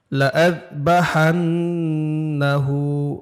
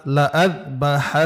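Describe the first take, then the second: First: লাআযবাহান্নাহু with the লা drawn out long, slowly; wrong stretched la. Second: লাআযবাহান্নাহু with a short, unstretched লা. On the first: Student reciting to the teacher, লা drawn out too long. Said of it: "লা না কিন্তু". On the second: Teacher showing the student the short লা without elongation. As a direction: keep the লা of লাআযবাহান্নাহু clipped short. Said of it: "এখানে টান হবে না". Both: Shown as a demonstration.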